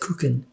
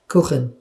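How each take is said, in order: First: It is said with an American English accent. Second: It is said with a native German accent. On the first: The speaker calls it wrong. "He has an American accent" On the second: The speaker calls it right. "if you say cake in German, it's Kuchen"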